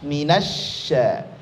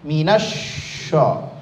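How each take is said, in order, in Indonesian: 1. Bunyi sh itu tipis dan ringan. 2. Bunyi sh itu tebal dan berat. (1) "tipis aja" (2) "itu salah"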